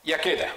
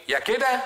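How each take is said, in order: First: Second option falling. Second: First option rising high; يا كده sung up high, like the first of two; either this. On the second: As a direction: lift يا كده up as the first choice. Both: Shown as a demonstration. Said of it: "عندي خيارين".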